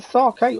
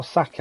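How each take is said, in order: First: "sake" with a long first vowel, sah-kay; first option, "sake" as sah-kay; sake pronunciation option. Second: "sake" with a short first vowel, sack-ay; second option, "sake" as sack-ay; alternative sake pronunciation. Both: Shown as a demonstration. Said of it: "not sure how you say it".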